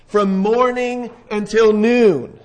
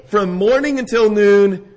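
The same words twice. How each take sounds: First: Slow, stretched-out phrase; drawn out. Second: Said in the usual way. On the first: Shown as a demonstration. Preacher stressing to the congregation how long the prophets called, drawn out slowly. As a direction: drag it out to make the hours feel long.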